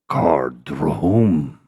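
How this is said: It is said harshly, deep in the throat.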